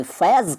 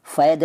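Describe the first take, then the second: First: Said in the usual way. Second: फ़ैद ending on d. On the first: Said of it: "फ़ैद नहीं कहते". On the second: Shown as a demonstration. Teacher showing the rejected form, फ़ैद with d for z. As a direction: close फ़ैद with d, not z. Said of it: "नहीं कहते".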